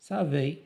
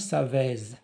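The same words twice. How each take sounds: First: The ending sounds like 'ay' with no z. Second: The ending is said with an audible z. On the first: The speaker calls it right. "كيفاش نطقناها بحال A" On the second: The speaker calls it wrong. "ما قلناش savez"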